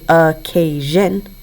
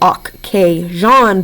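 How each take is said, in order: First: The word is pronounced naturally as in everyday speech. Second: Each sound is pronounced carefully as it is spelled. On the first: This is how the word is normally spoken. "but we say occasion" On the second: This is how the word is thought of for spelling. "we think to spell occasion"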